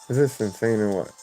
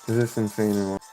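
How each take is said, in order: No difference in how they are said.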